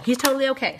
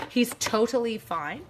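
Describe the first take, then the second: First: Lighthearted. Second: Said in the usual way. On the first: Real, not acted. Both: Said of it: "I will sound all lighthearted and silly".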